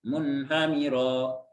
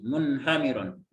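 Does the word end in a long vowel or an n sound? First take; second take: long vowel; n sound. First: The word ends in a long vowel, no n. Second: The word ends with an audible n sound. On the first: This is how it is read in Quran recitation. "Kalau baca Al-Quran kan diiwat ya, maksudnya diganti dengan mat" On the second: This is how it is read in ordinary Arabic speech. "maka ininya di dibaca tanwin munhamiron gitu"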